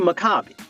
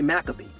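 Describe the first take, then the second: First: The name is said with an 'ah' vowel. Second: The name is said without the 'ah' vowel. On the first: The speaker calls it right. "It's really Maccabi. ... the ah sound" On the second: The speaker calls it wrong. "It's not really Maccabee"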